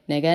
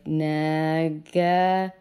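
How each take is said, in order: First: The word is said quickly, repeated fast. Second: The word is drawn out slowly.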